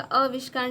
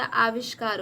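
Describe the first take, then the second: First: आविष्कार opened with a short "a"; wrong short vowel. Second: आविष्कार opened with a long "aa"; corrected long vowel. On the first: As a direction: start आविष्कार as "avishkaar". (आविष्कार को छोटे अ से "अविष्कार" बोलें) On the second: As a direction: stretch the first vowel of आविष्कार. (आविष्कार को लंबे आ से बोलें) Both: Shown as a demonstration. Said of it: "आ की मात्रा रहेगा".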